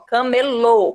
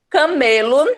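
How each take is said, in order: First: The stress is on the last syllable. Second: The stress is on the middle syllable. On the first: It names a street vendor. "o som se desloca para a última sílaba, tornando ela mais forte ... mais forte é o lô" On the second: It names the animal. "sem acento, animal"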